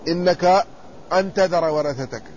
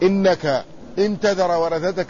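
First: The second particle starts with an a vowel. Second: The second particle starts with an i vowel. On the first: It gives a reason: that you leave your heirs. "وقال الصحيح إنها بفتح الهمز" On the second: It is a condition: if you leave your heirs. "هنا عندنا الهمزة عليها كسرة"

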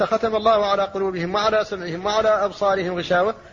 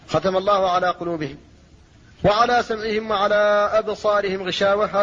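First: It runs on without a pause after قلوبهم. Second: There is a pause after قلوبهم.

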